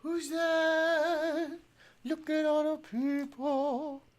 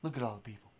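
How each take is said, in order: First: High, slow cooing to the dog; high sing-song pet talk. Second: Said in the usual way. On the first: Real, not acted. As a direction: coo at the puppy. Talking to dog.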